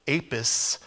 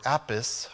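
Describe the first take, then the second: First: "Apis" with a long A, as in ape; long-A pronunciation. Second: "Apis" with a short A, as in apple; short-A pronunciation. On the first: Preacher naming the Egyptian cow god, "Apis" said AY-pis. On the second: Preacher unsure of the god's name, "Apis" tried as AP-iss. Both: Shown as a demonstration. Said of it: "I don't know how to say it".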